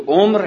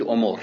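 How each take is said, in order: First: عمر said as omr, middle letter without vowel; with a silent middle consonant. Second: عمر said as omor, middle letter with a vowel; with a voweled middle consonant. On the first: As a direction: clip عمر to one syllable, omr. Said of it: "به سکون عین بخونید". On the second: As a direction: stretch عمر to two syllables, omor. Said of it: "هم به حرکت". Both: Shown as a demonstration.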